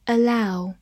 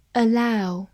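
The two takes are said the same way.

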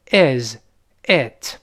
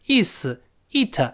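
First: "is it" with short, lax i; "is it" as iz, it, never ees, eet; correct short vowel. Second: "is it" with a long ee sound; "is it" with tense ee vowels; wrong long vowel. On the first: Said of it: "而是". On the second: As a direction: say "is it" as ees, eet. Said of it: "所以不是". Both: Shown as a demonstration.

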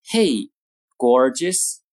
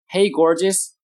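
First: Two words split by a pause; slow model reading. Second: Said in the usual way. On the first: Shown as a demonstration. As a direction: separate the words for learners. Model phrase, slow take first.

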